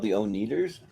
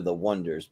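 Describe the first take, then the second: First: The name begins with the sounds oh-nee. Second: The name begins with the sound won. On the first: This is the mistaken reading of the name. The speaker calls it wrong. "they get mispronounced" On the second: This is the name as intended. The speaker calls it right. "you know they're the Wonders"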